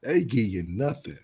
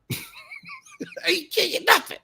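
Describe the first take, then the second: First: Said in the usual way. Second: High, slow mocking sing-song. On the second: Mocking a stingy man by refusing a woman gifts, in a high sing-song. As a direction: stretch it out in a high teasing voice.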